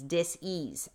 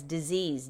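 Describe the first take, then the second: First: Dis-ease said as dis, then ease, set apart; split into two parts. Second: Said in the usual way. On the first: Shown as a demonstration. Pulls disease apart into dis-ease to make her point. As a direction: break dis-ease into dis and ease to show its root.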